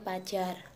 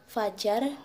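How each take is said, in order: First: The word begins with a p sound. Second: The word begins with an f sound. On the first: The speaker calls it wrong. "bukan pajar" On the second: The speaker calls it right. "contoh yang benar seperti fajar"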